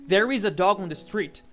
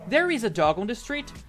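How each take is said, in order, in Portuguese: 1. A entonação cai no final, como em uma afirmação. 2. A entonação sobe no final, como em uma pergunta.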